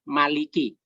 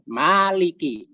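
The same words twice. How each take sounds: First: The first vowel is held short. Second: The first vowel is held long. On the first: It names the one who rules as king. "Ma-nya dibaca pendek" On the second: It names the one who owns. "yang umum itu dibaca panjang"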